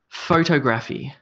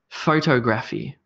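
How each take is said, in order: First: The stress is on the first syllable. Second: The stress is on the first syllable.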